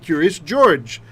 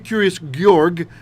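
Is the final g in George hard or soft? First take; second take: soft; hard. First: The name ends with a soft j sound. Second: The name ends with a hard g sound. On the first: The speaker calls it right. "we say curious George. He's got two J sounding G's" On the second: The speaker calls it wrong. "we don't say"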